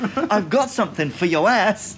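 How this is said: It sounds gentle and caring. The speaker is offering a remedy for a sore backside. The speaker calls it wrong. "It's the intonation. It's, ... Like, oh, I know you've had trouble with your ass recently"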